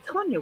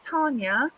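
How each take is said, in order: First: The first vowel is an o sound. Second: The first vowel is a long ar sound. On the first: "Since when does an A sound like an O?" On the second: "Some people say my name's Tanya, and it's not because it's got no R in it"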